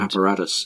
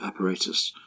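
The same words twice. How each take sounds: First: It is said with an American pronunciation. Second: It is said with the speaker's local pronunciation.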